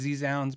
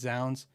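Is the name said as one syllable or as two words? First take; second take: two words; one syllable. First: The name is said as letter Z plus 'sounds'. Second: The name is said as one syllable, 'zounds'. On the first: The speaker calls it wrong. "I always say Z Sounds" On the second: The speaker calls it right. "but it's Zounds"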